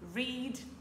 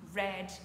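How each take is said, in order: First: The vowel is long, like 'reed'. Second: The vowel is short, like 'red'. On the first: It is the base form of the verb. "La forme infinitive, read" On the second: It is the past form of the verb. "comme la couleur rouge"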